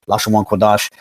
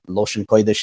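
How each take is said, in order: First: The phrase is said with a non-Yiddish pronunciation. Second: The phrase is said with a Yiddish pronunciation.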